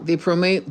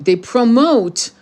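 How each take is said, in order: First: Said in the usual way. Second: Slow, each syllable of "promote" leaned on; "promote" stretched and punched; stress on promote. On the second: Shown as a demonstration. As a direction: drag out "promote" with weight.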